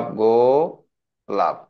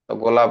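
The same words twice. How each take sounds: First: "গোলাপ" split as গো, pause, লাপ; slow syllable-by-syllable "গোলাপ". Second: Said in the usual way. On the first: Shown as a demonstration. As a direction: stretch the first syllable of "গোলাপ", then drop লাপ after a gap. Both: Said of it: "এখানে কয়টা syllable".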